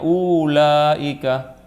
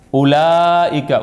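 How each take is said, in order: First: "ulaika" with the U drawn out long, slowly. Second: "Ulaika" with a short clipped U, slowly. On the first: Teacher demonstrating "ulaika" with a long U. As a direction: stretch the U in "ulaika". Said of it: "Padahal harusnya". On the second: Teacher demonstrating "Ulaika" with a short U. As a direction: read "Ulaika" with the U kept short. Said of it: "U-nya pendek". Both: Shown as a demonstration.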